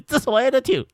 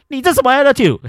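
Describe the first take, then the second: First: Teasing. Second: 你这什么attitude said high and loud, outraged; indignant outburst. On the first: Teasing the angry auntie, high playful mock. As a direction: poke fun at her. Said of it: "我就一直很想要闹她这样". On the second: Reacting to the card being thrown, loud high outrage. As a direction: snap it at her after she throws the card. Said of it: "我就说". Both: Retold or imitated.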